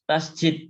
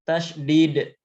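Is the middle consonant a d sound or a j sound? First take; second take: j sound; d sound. First: The middle consonant is a j sound. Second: The middle consonant is a d sound. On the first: The speaker calls it wrong. "salah mengucapkan tasydid dengan huruf huruf J" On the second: The speaker calls it right. "Yang benar dengan huruf dal atau huruf D"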